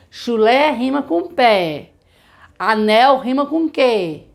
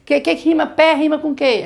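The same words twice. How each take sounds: First: Slow teacher demo; slow example. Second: Higher, quizzing voice; the wrong way to ask; wrong way demo. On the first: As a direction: model the rhyme slowly. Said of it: "a gente dá o exemplo". (exemplo lento de professora) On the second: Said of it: "A gente não fala assim". (pergunta do jeito errado, mais aguda) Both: Shown as a demonstration.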